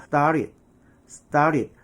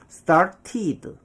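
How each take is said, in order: First: "started" with a flapped T, "star-rid"; T를 리을로. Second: "started" with a hard second T, "star-tee-duh"; 걸리적거리는 T 발음. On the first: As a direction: soften the second T of "started" into a tap. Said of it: "두 번째 T를 리을 발음으로". ('started'를 '스따릿'으로) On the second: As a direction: pronounce both T's fully in "started". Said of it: "매끄럽지 못하고 뭔가 걸리적거리죠". ('started'를 '스타티드'로 또박또박) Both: Shown as a demonstration.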